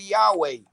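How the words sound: It is said in the ancient Hebrew way. "no hebraico paleu, hebraico antigo"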